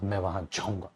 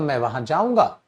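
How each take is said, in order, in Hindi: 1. यह सीधे-सादे, सामान्य तरीके से कहा गया है। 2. यह दृढ़ता से, निश्चय के साथ कहा गया है। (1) "एक अपने आप में नॉर्मल वे" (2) "एक डेटर्मिनेशन दिखाएगा"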